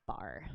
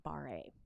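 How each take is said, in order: First: "barre" said as one syllable, like bar; "barre" rhyming with car; correct pronunciation. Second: "barre" said as two syllables, bar-ay; "barre" mispronounced as bar-ray; mistaken pronunciation. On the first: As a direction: say "barre" with a silent final e. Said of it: "but it's pronounced barre". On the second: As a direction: sound the final e of "barre" as ay. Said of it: "not barre". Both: Shown as a demonstration.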